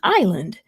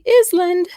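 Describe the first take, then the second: First: The S in the word is silent. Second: The S in the word is pronounced. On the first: The speaker calls it right. "It's silent just like an island" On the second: The speaker calls it wrong. "we don't say Island"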